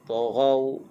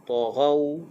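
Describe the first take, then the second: No difference in how they are said.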